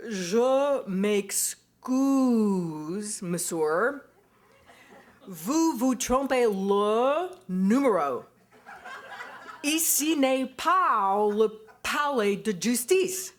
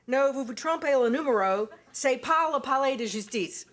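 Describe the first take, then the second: First: Very slow, over-enunciated French, each syllable laid out; painstaking American French, slow and deliberate; slow careful French. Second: A higher, louder, anglicized French with hard American vowels; clumsy American French. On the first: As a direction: spell it out for a foreigner on the phone, word by word, with a laugh. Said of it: "his slower, more carefully enunciated". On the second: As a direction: bluff through the French the way an American learner would. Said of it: "it came off sounding something like". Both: Retold or imitated.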